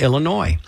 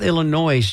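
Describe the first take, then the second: First: The word ends in a plain 'noy' sound. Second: The word ends with a voiced 'z' sound. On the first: The speaker calls it right. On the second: The speaker calls it wrong.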